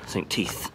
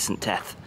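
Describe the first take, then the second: First: The second word has a long 'ee' vowel. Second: The second word has a short 'e' vowel. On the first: The speaker calls it wrong. "that would sound ridiculous" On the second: The speaker calls it right. "So I think it's Saint Teth"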